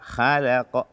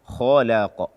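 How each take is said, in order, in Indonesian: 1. 'Kh'-nya ringan dan tipis. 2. 'Kh'-nya berat dan tebal.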